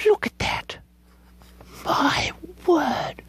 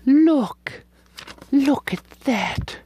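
First: Hushed higher whisper; whispered amazement; awed whisper. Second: Slow admiring. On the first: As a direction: breathe it out in wonder. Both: Real, not acted. Admiring paper.

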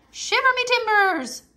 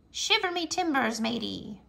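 First: Excited pirate shout. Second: Pirate voice. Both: Acted. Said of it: "Talk Like a Pirate".

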